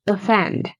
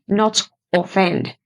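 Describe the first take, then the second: First: The first vowel is a reduced schwa. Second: The first vowel is a full vowel. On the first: The speaker calls it right. "It's offend" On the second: The speaker calls it wrong.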